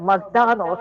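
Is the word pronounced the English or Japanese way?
English. It is said with English sounds, in three syllables.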